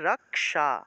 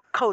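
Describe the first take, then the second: First: The middle consonant splits into k then retroflex sh. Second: The middle consonant is not split into k and sh. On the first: This is the Sanskrit way of saying it. "রক্ষা থাকলে উচ্চারণ হবে" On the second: This is the Bengali way of saying it. "বাংলায় আমরা রক্ষা উচ্চারণ করি"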